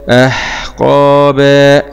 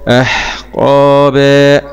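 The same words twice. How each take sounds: The two takes are said the same way.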